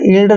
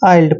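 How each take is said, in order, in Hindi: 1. यह स्वर छोटा 'इ' की ध्वनि है। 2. यह स्वर द्विस्वर है, 'eye' जैसा। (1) "इल्ड नहीं पढ़ना है" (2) "आइल्ड पढ़ना है"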